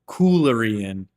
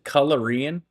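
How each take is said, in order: First: The first vowel is a long 'oo' sound. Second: The first vowel is a short 'uh' sound. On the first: The speaker calls it right. "Coolarian. Gotcha" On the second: The speaker calls it wrong. "I'm saying that with like a the pronouncing the a the U as an A"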